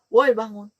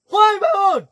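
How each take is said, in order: First: It is said softly and gently. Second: It is shouted loudly.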